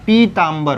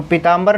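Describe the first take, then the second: First: पीताम्बर with a held "pee" at the start; long ī. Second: पीताम्बर with a quick short first i. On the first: Teacher correcting it for students, long-ī पीताम्बर. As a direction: stretch the पी of पीताम्बर. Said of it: "पीताम्बर होता है". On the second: Teacher showing students the misspelling, short-i पीताम्बर. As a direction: keep the पी of पीताम्बर brief. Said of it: "पीताम्बर नहीं होता". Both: Shown as a demonstration.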